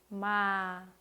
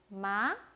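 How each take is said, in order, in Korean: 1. 음이 천천히 가볍게 끝까지 내려갑니다. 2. 음이 가볍게 올라갑니다. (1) "아주 가볍게 천천히 그리고 끝까지 내려주시면 됩니다" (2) "가볍게 올라갔죠?"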